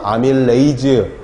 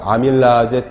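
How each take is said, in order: First: The word ends with an 'ay-zeu' sound. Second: The word ends with an 'ah-jeh' sound. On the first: This is the more common way today. "요즘은 에이즈로 발음을 많이 합니다" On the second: This is the older way of saying it. "아제로 발음했죠"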